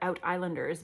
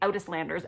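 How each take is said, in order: First: The word is 'island' plus '-ers'. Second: The word ends in '-landers', like Newfoundlander. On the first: The speaker calls it right. "obviously it's the out islands and they are out islanders" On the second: The speaker calls it wrong. "It wants to say landers"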